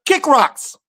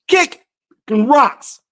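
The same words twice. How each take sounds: First: Said in the usual way. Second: Sing-song taunt. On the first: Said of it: "repeats it in a new tune". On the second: Shown as a demonstration. Taunting America with a sing-song kick rocks. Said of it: "second take, sing-song".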